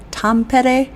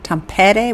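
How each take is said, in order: First: "Tampere?" said higher, weight on the second syllable TAM-PE-re; stress trial. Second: "Tampere?" with weight on the first syllable TAM, rising at the end; questioning stress trial. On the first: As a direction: try "Tampere?" with a higher, firmer middle. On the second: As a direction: ask "Tampere?" stressed at the front. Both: Shown as a demonstration. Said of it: "where's the emphasis?".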